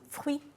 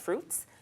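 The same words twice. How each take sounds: First: It is said with a French pronunciation. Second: It is said with an English pronunciation. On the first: "but the pronunciation is fruits" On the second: "it's actually spelled the same way as fruits"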